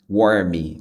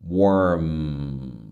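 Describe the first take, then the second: First: An extra vowel is added after the final m. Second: The word ends cleanly on the final m. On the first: The speaker calls it wrong. "Não é warmy" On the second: The speaker calls it right. "É warm"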